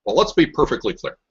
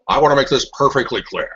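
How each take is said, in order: First: Said in the usual way. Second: Richard Nixon. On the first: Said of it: "Slight difference in tonality". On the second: Retold or imitated. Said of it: "you sound a lot like Richard Nixon".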